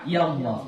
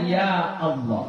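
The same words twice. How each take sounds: First: Ya runs straight into Allah without a catch. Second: A glottal catch separates ya from Allah. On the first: The speaker calls it wrong. "bukan ya Allah" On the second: The speaker calls it right. "Bacaannya ya Allah"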